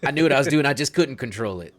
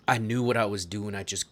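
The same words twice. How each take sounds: First: Put-on louder, higher retake without the southern accent; forceful in-character confession; corrected character voice. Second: Put-on lightly southern-accented character line. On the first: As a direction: push the confession out loudly, southern accent dropped. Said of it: "sorry, I'm still doing the southern accent". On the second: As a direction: play it with a slight southern accent. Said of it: "I'm still doing the southern accent".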